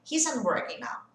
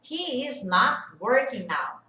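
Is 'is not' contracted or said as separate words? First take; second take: contracted; separate. First: 'Is' and 'not' are joined into 'isn't'. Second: 'Is' and 'not' are said as separate words. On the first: It is the ordinary everyday way of saying it. "na forma mais usual da fala" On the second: It sounds insistent, like saying I already told you. "quando você separa as coisas na hora de falar"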